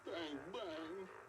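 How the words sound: It is said in a sad tone.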